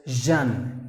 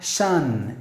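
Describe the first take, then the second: First: Jean said as zhun, with a buzzing start; voiced zh sound. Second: Shan said as shun, with a hushing start; wrong voiceless sh. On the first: Teacher modelling the right ending, Jean said as voiced zhun. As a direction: voice the first consonant of Jean, zhun. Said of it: "you have to pronounce the word as". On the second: Teacher showing what to avoid, Shan with voiceless sh. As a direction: begin Shan with sh and no buzz. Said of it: "not Shan". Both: Shown as a demonstration.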